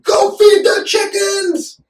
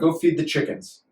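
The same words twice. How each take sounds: First: It is shouted as an exclamation. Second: It is said calmly, without shouting.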